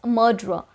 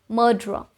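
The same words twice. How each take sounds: No difference in how they are said.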